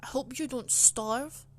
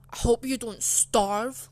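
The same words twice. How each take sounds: First: Nasty teacher's jab. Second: Hostile, nasty. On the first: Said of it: "she said that very nastily". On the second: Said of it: "in a pure hostile, nasty way". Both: Retold or imitated.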